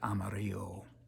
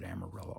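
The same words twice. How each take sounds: First: The name is said in its original pronunciation. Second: The name is said in its common local pronunciation. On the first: "The original pronunciation, the higher conscious pronunciation" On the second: "I don't want to leave out those that pronounce it Amarillo also"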